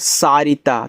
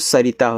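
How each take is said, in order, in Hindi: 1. पहला स्वर लंबा है। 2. पहला स्वर छोटा है। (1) "सारिता नाम होता नहीं" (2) "इससे मात्रा हटा दो"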